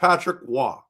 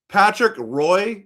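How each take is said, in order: First: The surname is said French-style, without the 'r-oy'. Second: The surname is said as spelled in English. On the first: This is the proper pronunciation. The speaker calls it right. "instead of" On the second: This is the mispronunciation. The speaker calls it wrong. "He butchered names. Like"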